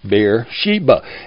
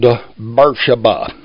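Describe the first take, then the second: First: The name is said in the old biblical pronunciation. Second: The name is said in the local pronunciation. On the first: "The old Bible pronunciation is Beersheba" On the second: "that's the way we pronounce it locally"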